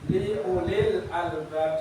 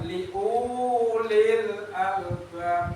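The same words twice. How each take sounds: First: The first vowel of ulil is short. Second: The first vowel of ulil is long. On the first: The speaker calls it right. "punya pendek" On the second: The speaker calls it wrong.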